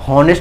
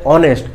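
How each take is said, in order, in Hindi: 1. इस शब्द की शुरुआत में h की आवाज़ साफ़ सुनाई देती है। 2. यह शब्द स्वर से शुरू होता है, इसमें h नहीं है। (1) "हॉनेस्ट मत पढ़िएगा" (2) "ये ओ एच इंग्लिश में साइलेंट होता है, ऑनेस्ट पढ़ते हैं"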